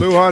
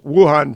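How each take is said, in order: First: The name begins with an L sound. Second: The name begins with a W sound. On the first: The speaker calls it wrong. "Luhan province did not exist" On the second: The speaker calls it right. "is Wuhan province"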